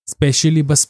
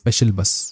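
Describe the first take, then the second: First: An 'ee' vowel follows 'special' before 'bus'. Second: 'Special' runs straight into 'bus' without 'ee'. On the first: The speaker calls it wrong. "फिर स्पेशली बस पढ़ोगे तुम" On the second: The speaker calls it right. "यह है स्पेशल बस"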